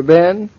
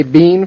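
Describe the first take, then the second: First: Said in the usual way. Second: "bean" with a long ee vowel; mock-posh long-vowelled "bean"; British-style been. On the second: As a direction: stress "bean" and rhyme it with seen. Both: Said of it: "you don't say bean for Ben".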